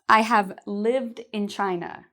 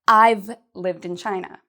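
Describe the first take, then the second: First: 'Have' is said as a full separate word. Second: 'Have' is shortened onto 'I' as I've. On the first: "instead of I have" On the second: "we can shorten have to I've"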